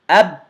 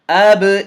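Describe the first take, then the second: First: The final consonant is closed off with no echo. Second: The final consonant ends with a slight echoing bounce. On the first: The speaker calls it wrong. "I'm closing the articulation point and I'm not doing the echo" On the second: The speaker calls it right. "The slight echo you hear"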